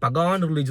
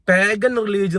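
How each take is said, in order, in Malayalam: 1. 'pagan'-ലെ രണ്ടാമത്തെ അക്ഷരത്തിന് ഊന്നൽ ഉണ്ട്. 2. 'pagan'-ലെ ആദ്യത്തെ അക്ഷരത്തിന് ഊന്നൽ ഉണ്ട്. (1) "അവനെ പഗാൻ റിലീജിയൻ എന്ന് വായിക്കണം" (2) "പാഗൻ റിലീജിയൻ എന്നുള്ളതിന്"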